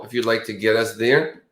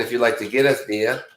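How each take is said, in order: First: Said in the usual way. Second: Mock Boston accent, r dropped in there; lightly put-on Boston accent. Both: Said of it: "Boston accent".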